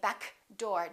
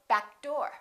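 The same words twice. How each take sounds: First: The k is released before door. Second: The k is held and linked into door. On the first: The speaker calls it wrong. "we're not going to say back door. Don't release that k" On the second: The speaker calls it right. "Just go"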